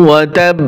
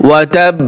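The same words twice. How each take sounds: The two takes are said the same way.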